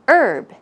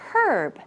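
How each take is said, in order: First: The word begins without an h sound. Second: The word begins with an h sound. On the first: This is the North American pronunciation. "without the H sound" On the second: This is the British pronunciation. "in British English, you would pronounce it with the H sound"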